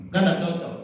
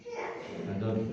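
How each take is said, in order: First: Said in the usual way. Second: "Tidak cocok" repeated much softer and slower; quiet slow repeat. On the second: Shown as a demonstration. Preacher repeats to the congregation, soft and slow.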